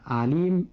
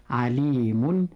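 First: Said in the usual way. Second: عليم with an added final "-un"; tanween ending. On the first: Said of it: "فليس في هذه الكلمة أو في هذا النطق تنوين". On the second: Shown as a demonstration. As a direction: sound an n after عليم, as "alimun". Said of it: "قد لحق بها نون ساكنة". (نطق عليم منونة بالضم)

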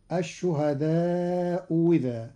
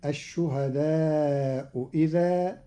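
First: الشهداء إذا said as ashuhadau wiza; hamza turned into waw. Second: الشهداء إذا with a light hamza between hamza and vowel; eased second hamza. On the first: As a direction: replace the second hamza in الشهداء إذا with a waw carrying a kasra. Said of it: "وإبدالها واوا مكسورة". (إبدال الهمزة واوا مكسورة) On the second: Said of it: "بتسهيل الهمزة الثانية بين بين". (تسهيل الهمزة الثانية بين بين) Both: Shown as a demonstration.

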